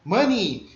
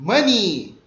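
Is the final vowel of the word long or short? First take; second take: long; long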